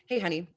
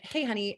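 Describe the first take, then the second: First: The voice is grounded and comes from the belly. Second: The voice is light and comes from the head. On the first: "my voice was coming from my belly center, and not from my head" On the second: "The first one, it was coming from my"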